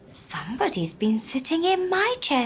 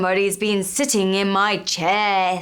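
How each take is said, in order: First: A soft voice like Mama Bear. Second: A loud, deep voice like Papa Bear.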